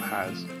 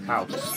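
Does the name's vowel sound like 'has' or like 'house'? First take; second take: has; house. First: The vowel sounds like the word 'has'. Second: The vowel sounds like the word 'house'. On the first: The speaker calls it wrong. "not Haz" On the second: The speaker calls it right. "House, not Haz. It's like house or horse"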